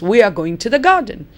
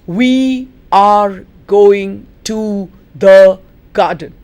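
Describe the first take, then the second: First: The words run together and "are" is reduced. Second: Each word is said separately with full forms. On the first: "It has become a" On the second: "Let us look at the words individually"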